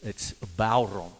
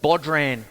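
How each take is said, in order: First: No d sound is pronounced in the middle. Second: A d sound is pronounced in the middle. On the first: It is the proper pronunciation. The speaker calls it right. "I got told off once early on in the piece" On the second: It is read the way it is spelt. The speaker calls it wrong. "you feel like you've got to say"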